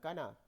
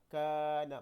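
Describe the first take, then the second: First: The first vowel is kept short. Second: The first vowel is held long. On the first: The speaker calls it wrong. "bukan kana" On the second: The speaker calls it right. "kena baca panjanglah"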